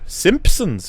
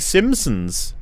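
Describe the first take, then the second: First: It is said with a clear P sound. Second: It is said without a P sound. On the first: "but you do" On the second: "if you didn't pronounce the P"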